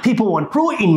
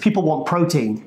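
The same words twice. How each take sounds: First: It is said in an imitation of another man's voice. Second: It is said in the speaker's own voice.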